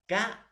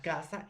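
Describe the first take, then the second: First: Casa as two separate beats, ca and sa; high ca, a clear pause, then sa in casa; syllable by syllable. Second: Said in the usual way. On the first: Shown as a demonstration. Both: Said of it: "la palabra casa estoy silabeando".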